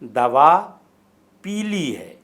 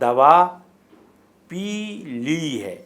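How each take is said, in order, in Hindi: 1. शब्द 'pili' बिना किसी विराम के बोला जाता है। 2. 'pi li' के बीच एक छोटा सा विराम लिया जाता है। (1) "अगर दोनों को एक साथ बोला जाए तो ये लफ्ज़ पीली यानी रंग का मानी देता है" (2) "थोड़ा सा वक्फ़ा देकर बोला जाए तो ये मुरक्कब फ़ेल है"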